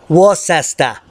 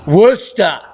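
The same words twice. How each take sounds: First: Worcester said in three syllables, "Wor-ses-ter"; his own pronunciation. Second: Worcester said short as "Wuster", two syllables; local pronunciation. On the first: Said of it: "So it depends on your dialect". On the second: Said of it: "I know you want me to say Worcester". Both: Shown as a demonstration.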